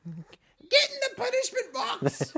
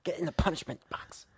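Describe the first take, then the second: First: Very high, drawn-out British wife impression; mock British wife. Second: Hushed, whispery British wife impression; mock British wife. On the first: Imitating a wife ordering her husband in, high mock British. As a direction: screech it slowly in a put-on British falsetto. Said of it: "My wife's not British". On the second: Cohost imitating the host's wife ordering him in, whispered mock British. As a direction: put on a British voice, mostly whispered. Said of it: "that's the biggest problem with that impression".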